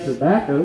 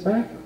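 First: All syllables are said fully and clearly. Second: Syllables are slurred together in a country accent.

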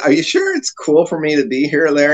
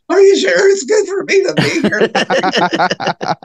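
First: It is said in a normal voice. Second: It is said in an exaggerated nerdy voice.

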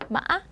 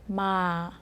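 First: The tone is tense with a sharp bounce. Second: The tone falls slowly from high to low. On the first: "목에 힘을 주시고 딱 튕기는 소리예요" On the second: "이렇게 천천히 내려주시면 돼요"

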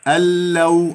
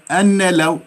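First: The n merges fully into the following l. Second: The n is pronounced separately before the l. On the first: The speaker calls it right. "ألناكل النون" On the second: The speaker calls it wrong. "راح تكون ثقيلة لو قلت أن لو"

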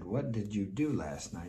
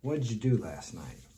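First: Each word is pronounced fully and clearly. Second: The words are run together and clipped.

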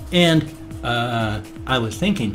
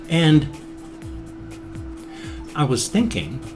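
First: The gap is filled with an 'ah' sound. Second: The gap is a silent pause. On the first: The speaker calls it wrong. "don't say or ah. ... So don't go" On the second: The speaker calls it right. "just pause, wait, then talk. ... just go"

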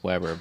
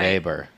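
First: It begins with a W sound. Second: It begins with a V sound. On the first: "my last name is Weber" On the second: "With a V, ... German, you'd say"

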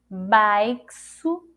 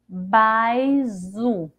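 First: The x is sounded as ks. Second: The x is sounded as a z. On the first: "E com som de ceci" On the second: "Ficaria assim se fosse com som dizer"

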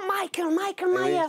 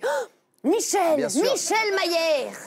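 First: The name is pronounced the English way. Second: The name is pronounced the French way. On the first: This is how the name is usually said. "normalement, c'est" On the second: This is how the French dub says the name. "en français ... ça fait"

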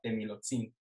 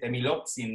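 First: The stress falls on the last syllable. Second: The stress falls before the last syllable. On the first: The speaker calls it wrong. "con el énfasis en el zin" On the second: The speaker calls it right. "debo decir temilotzin"

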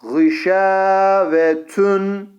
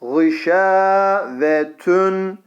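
No difference in how they are said.

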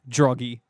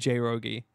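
First: The name begins with a 'dr' sound. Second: The name begins with a separate 'j' sound. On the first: The speaker calls it right. "You said it right" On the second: The speaker calls it wrong. "I've never said it right. I've always said J Rogie"

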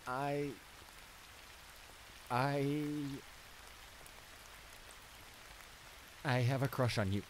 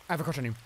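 First: The sentence is spoken more slowly. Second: The sentence is spoken quickly. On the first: "I will say it a little slower" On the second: "I'm gonna say it fast just to get it off my chest"

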